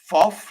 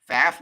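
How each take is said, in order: First: The vowel is pronounced in a German way. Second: The vowel sounds like the vowel in Aflac. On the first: The speaker calls it right. "like they did in Germany" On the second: The speaker calls it wrong. "F A F like Aflac"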